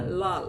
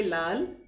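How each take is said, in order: First: Put-on लाल in an English accent, dark l. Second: लाल with a clear Hindi l; Hindi pronunciation. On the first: Teacher imitating an Englishman, English accent. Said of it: "यदि कोई अंग्रेज इसे बोलेगा". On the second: Shown as a demonstration. Teacher contrasting languages for students, Hindi pronunciation. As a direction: say लाल with a pure, light l. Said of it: "Hindi में हम बोलेंगे लाल".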